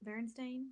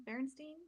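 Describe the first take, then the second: First: Berenstain ending in "stain"; trying a pronunciation. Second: Berenstein ending in "steen", questioning; alternative pronunciation. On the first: Co-host checking how the bears' name is said, pronunciation try. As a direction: say Berenstain with a long A in the last syllable. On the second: Co-host unsure of the bears' name, alternative pronunciation. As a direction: say Berenstein with a long E in the last syllable, rising. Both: Shown as a demonstration. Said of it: "How do you say it?".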